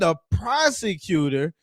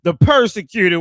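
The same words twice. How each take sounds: First: "prosecutor" said slowly with a clear pro-; correct pronunciation. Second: "persecutor" said with per- instead of pro-, louder; mock mispronunciation. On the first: Shown as a demonstration. Correcting Simon's "persecutor", slow and clear. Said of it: "I believe that's what you were trying to say". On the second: Mocking Simon's "persecutor" to the stream. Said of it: "when you go in front of the prosecutor".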